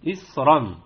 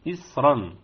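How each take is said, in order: The two takes are said the same way.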